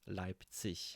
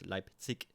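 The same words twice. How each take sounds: First: The word ends in a soft ch sound. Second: The word ends in a hard k sound. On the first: "it sounds a bit more soft, softer, smooth" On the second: "it has many of these K sounds"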